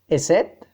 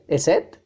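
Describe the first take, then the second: Both takes have the same delivery.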